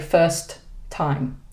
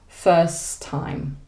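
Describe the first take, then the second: First: The two words are said separately, both T sounds. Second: The words flow together with one shared T. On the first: The speaker calls it wrong. "We don't separate the words like that" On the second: The speaker calls it right. "We kind of flow through the words"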